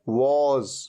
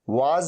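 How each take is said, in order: First: The vowel is a short rounded 'o' sound. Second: The vowel is an open 'aa' sound. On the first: The speaker calls it right. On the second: The speaker calls it wrong. "वाज नहीं"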